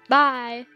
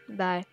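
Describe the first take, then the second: First: It is said in a brighter, cheerful way. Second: It is said in a sad, flat way.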